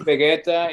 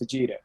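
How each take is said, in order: First: The name is pronounced with Spanish sounds. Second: The name is pronounced with English sounds. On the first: "in Spanish is" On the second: "In English is"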